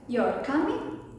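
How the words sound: The pitch rises and falls noticeably. "more varied intonations with a noticeable rise and fall"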